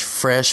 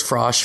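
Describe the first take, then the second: First: Said in the usual way. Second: "frosh", a botched "fresh" with the wrong vowel; mangled "frosh" in an ad line; flubbed word. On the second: Retold or imitated. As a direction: trip on "fresh" so it comes out "frosh". Flubbing the rehearsed commercial line.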